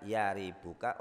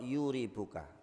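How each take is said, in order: First: The first syllable has the vowel 'a'. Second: The first syllable has the vowel 'u'. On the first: "bi fathi" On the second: "bi dhamm"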